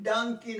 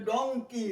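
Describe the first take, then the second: First: ডাঙ্কি with an open a in the first syllable; wrong pronunciation. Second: ডঙ্কি with a rounded o in the first syllable; correct pronunciation. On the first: Teacher showing what to avoid, ডাঙ্কি with an a. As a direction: open the vowel, dunky for ডাঙ্কি. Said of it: "ডাঙ্কি নয়". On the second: Teacher repeating the right form, ডঙ্কি with an o. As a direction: round the vowel, donky for ডঙ্কি. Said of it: "এটা ডঙ্কি". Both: Shown as a demonstration.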